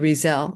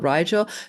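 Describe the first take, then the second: First: The middle consonant is a z sound. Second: The middle consonant is a hard g sound. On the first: It is the pronunciation some sources give. "the pronunciation could be Rizel" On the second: It is read the way it is spelled. "even though it looks like R I G E L"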